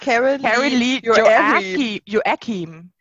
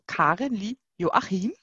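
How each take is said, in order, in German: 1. Der Name wird englisch ausgesprochen. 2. Der Name wird deutsch ausgesprochen. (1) "Jetzt mach das mal auf Englisch" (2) "ich muss das so aussprechen, wie ich sie lese"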